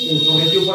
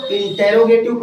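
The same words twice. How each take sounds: First: इंट्रोगेटिव squeezed to "in-tro"; shortened pronunciation. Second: इंटेरोगेटिव with a full "te-ro" in the middle; variant pronunciation. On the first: Teacher shows the other reading, इंट्रोगेटिव shortened to "in-tro". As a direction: say इंट्रोगेटिव with no vowel between t and r. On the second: Teacher shows how some people read it, इंटेरोगेटिव with "te-ro". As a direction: say इंटेरोगेटिव with every syllable, in-te-ro-ge-tiv. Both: Shown as a demonstration. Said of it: "ये accent का अलग अलग फर्क है".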